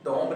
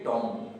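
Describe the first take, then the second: First: A b sound is heard at the end. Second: The word ends on the m sound. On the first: The speaker calls it wrong. "इसे हम टॉम्ब नहीं" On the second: The speaker calls it right. "बी अपना sound नहीं देता"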